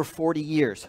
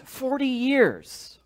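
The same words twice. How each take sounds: First: Said in the usual way. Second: "Forty years" drawn out high and slow; emphatic repeat. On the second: Shown as a demonstration. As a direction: stretch "Forty years" out slowly, pitched up.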